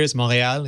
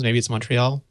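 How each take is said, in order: First: Montreal as "mor-ay-AL", t silent; francophone Montreal. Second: Montreal as "mun-tree-ALL", t sounded; anglophone Montreal. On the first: Guest explains francophone usage, French pronunciation of Montreal. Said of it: "If you're one of the francophones". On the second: Guest explains anglophone usage, English pronunciation of Montreal. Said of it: "If you're one of the anglophones". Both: Shown as a demonstration.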